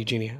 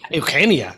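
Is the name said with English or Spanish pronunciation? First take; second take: English; Spanish. First: The name is said with English pronunciation. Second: The name is said with Spanish pronunciation. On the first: This is how most people say the name. "Everybody calls me Eugenia" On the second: This is how the parents named her. "pero tus padres te llamaron. Like, Eugenia"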